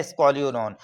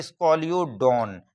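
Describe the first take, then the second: First: Said in the usual way. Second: Scoliodon said slowly, syllable by syllable; teacher pronouncing Scoliodon slowly; slow clear naming. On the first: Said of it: "क्या है?". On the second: Shown as a demonstration. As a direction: spell out Scoliodon slowly for students. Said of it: "पहला example है".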